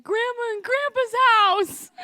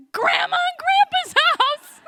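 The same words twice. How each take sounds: First: Put-on high, slow small-kid answer; child answering. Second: Put-on high, loud, slow exasperated kid's shout; annoyed child shout. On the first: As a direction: say it like a tearful five-year-old. Child answers old woman. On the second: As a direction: snap it like the question is stupid. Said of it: "annoyed by what I thought was a really stupid question".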